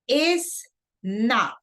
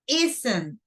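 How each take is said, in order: First: It is said as two separate words. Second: It is said as one contracted word. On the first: "I'm pronouncing two words" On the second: "I'm pronouncing only one word"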